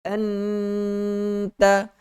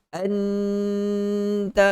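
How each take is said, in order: No difference in how they are said.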